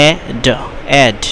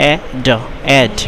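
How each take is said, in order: Both takes have the same delivery.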